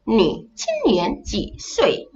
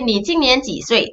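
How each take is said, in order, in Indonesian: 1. Suku katanya diucapkan dengan tiap nada yang jelas. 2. Suku katanya diucapkan dengan nada datar. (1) "kalau ikut nada yang betul" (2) "nada dia hilang"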